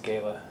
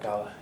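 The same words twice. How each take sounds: First: "gala" said GAY-la, with a long A; preferred pronunciation. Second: "gala" said GAH-la, with an open A; rejected pronunciation. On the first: Speaker telling the audience his way to say it, "gala" as GAY-la. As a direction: say "gala" with first syllable as in "gay". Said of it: "I pronounce it gala". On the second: Speaker showing the audience the way he avoids, "gala" as GAH-la. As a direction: say "gala" with first syllable as in "father". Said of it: "not gala". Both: Shown as a demonstration.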